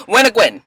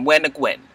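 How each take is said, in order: First: Light imitation of a Belizean dad's accent. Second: Said in the usual way. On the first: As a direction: mimic Belizean father, lightly. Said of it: "that was a little bit of my Belizean tongue". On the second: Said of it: "Where are you going?".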